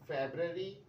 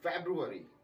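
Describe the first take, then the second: First: No roo syllable is heard after Feb. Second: A roo syllable is heard after Feb. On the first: The speaker calls it wrong. "फेब्ररी नहीं बोलना इसको" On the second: The speaker calls it right. "इसको बोलना है फैब्रुअरी"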